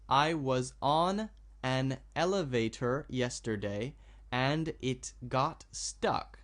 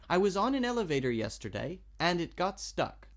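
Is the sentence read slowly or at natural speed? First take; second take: slow; natural. First: The sentence is read slowly, word by word. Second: The sentence is read smoothly with the words joined. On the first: "I'll read it slowly" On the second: "if I want to speak this naturally, I want to put these sounds together"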